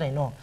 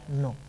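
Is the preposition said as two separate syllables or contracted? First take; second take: separate; contracted. First: It is said as two separate syllables. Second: It is contracted into one quick syllable. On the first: "se puede pronunciar en o" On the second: "cuando se charra a escape se pronuncia no"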